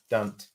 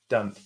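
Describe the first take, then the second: First: The two words are squeezed into one syllable. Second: The same.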